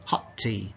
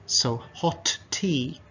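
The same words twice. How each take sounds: First: "hot tea" run together, the first t soft, low and quiet; linked natural. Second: "So hot tea" with every sound fully pronounced, slow; careful katakana-style. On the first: Teacher shows the natural linked way, relaxed. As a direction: let "hot tea" blend smoothly. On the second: Teacher shows the stiff textbook way, careful. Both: Shown as a demonstration. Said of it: "they become soft or they disappear".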